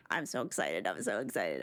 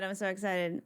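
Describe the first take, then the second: First: Very low, goofy deep voice; mock deep voice. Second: Said in the usual way. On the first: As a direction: drop the voice way down for a joke. Deep voice then own voice.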